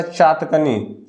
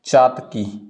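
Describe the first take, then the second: First: चातकनी drawn out very slowly; slow wrong form. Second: चातकी said low and final, without the नी; चातकी, falling; correct form. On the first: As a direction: stretch चातकनी syllable by syllable. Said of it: "चातकनी कुछ नहीं होता". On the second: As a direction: settle on चातकी as the answer. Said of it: "चातकी इसको बोलते हैं". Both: Shown as a demonstration.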